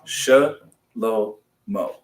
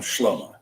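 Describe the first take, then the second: First: It is said slowly, syllable by syllable. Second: It is said quickly, run together in one go. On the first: "I would put the line right after that she" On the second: "Fast speakers are going to slur that"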